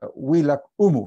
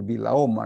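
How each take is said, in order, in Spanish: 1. El nombre empieza con un sonido w. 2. El nombre empieza con un sonido b. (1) "en realidad se pronuncia Huilac Humu" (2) "los españoles decían el Vilaoma"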